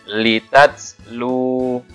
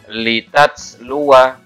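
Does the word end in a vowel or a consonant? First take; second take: consonant; vowel. First: The word ends on a vowelless w sound. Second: The word ends with a short vowel after w. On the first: The reader stops at this word. "karena dibaca su sukun" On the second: The reading continues on without stopping. "saya baca yang wasal dulu ya"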